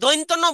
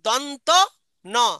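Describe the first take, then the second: First: The first vowel glides like 'oi'. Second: The first vowel is a plain 'o'. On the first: The speaker calls it wrong. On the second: The speaker calls it right.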